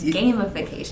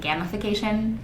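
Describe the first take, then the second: First: The first syllable sounds like game. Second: The first syllable sounds like gamma. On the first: The speaker calls it right. "It's a game. It's gamification" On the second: The speaker calls it wrong. "I've been saying gamification ... I always think you mean something with gamma rays"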